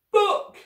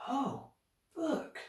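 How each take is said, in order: First: Put-on high, loud toddler shriek; squealed baby shout; sudden shout. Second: High, soft, airy echo; quiet dawning wonder; hushed realisation. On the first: A narrator's reading. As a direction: burst out with one piercing word. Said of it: "Sunny shouted suddenly". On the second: Acted. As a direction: let the idea dawn softly. Children realise what baby meant.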